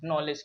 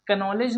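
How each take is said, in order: First: It starts directly with the n sound. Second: A k sound is heard before the n. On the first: The speaker calls it right. "क्योंकि यहाँ पे के silent है" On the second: The speaker calls it wrong. "कनॉलेज नहीं पढ़ेंगे"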